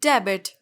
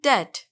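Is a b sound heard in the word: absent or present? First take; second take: present; absent. First: A b sound is heard in the word. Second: No b sound is heard in the word. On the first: The speaker calls it wrong. "बिल्कुल भी नहीं" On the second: The speaker calls it right. "यहाँ पर बी silent होगा"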